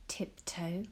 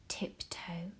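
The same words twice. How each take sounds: The two takes are said the same way.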